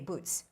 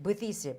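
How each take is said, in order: First: The word has one syllable ending in a t-sound. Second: The word has two syllables, with an added vowel. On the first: This is how native speakers say it. The speaker calls it right. "They would say boots" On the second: This is how the learner said it. The speaker calls it wrong. "you said Buddhist"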